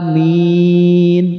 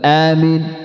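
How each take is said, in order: First: The vowel is held long and drawn out. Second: The vowel is kept short and clipped. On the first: The speaker calls it right. "Jadi panjang bacanya" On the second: The speaker calls it wrong. "bukan amin"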